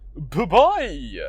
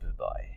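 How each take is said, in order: First: It is said loudly. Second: It is said softly.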